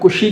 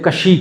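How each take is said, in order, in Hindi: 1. k के बाद का स्वर 'u' है। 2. k के बाद का स्वर 'a' है। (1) "कुशी कहना चाहिए" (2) "उसने कशी कह दिया"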